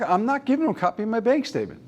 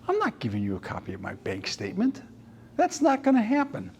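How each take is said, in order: First: A touch of exasperated daughter, higher and fast; daughter repeating. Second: Stubborn dad. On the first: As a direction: rattle off dad's refusal, lightly mocking. Daughter repeats dad's refusal. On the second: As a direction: lightly voice the dad's flat no. Dad refuses the bank statement. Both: Retold or imitated.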